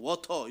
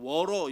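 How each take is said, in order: First: The middle t is said as a clear t. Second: The middle t is softened like an r. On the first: The speaker sounds precise. The speaker calls it right. "워터 이래야 어, 이 사람 되게 정확한 발음하는구나" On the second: The speaker sounds unsophisticated. The speaker calls it wrong. "워러 이렇게 하면은 해외에서는 아, 얘, 얘 촌스러운 영어 하네"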